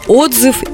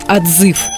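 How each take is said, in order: First: The stress is on the first syllable. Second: The stress is on the last syllable. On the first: A review or comment about something. "Мы часто пишем отзывы" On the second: Calling something or someone back. "в этом случае у нас будет ударение на последний слог"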